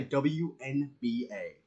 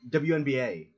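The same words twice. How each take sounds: First: W N B A slowly, letter by letter; mock-deliberate spelling out of W N B A; individual letters. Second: W N B A rattled off as one familiar name; quick rhythmic W N B A; W N B A with no gaps between letters; fast, run-together letters. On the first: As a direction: separate every letter in W N B A. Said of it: "he says it two individual letters". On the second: Shown as a demonstration. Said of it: "fast and with, like, a rhythm".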